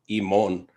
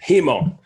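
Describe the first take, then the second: First: The word begins without an h sound. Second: The word begins with an h sound.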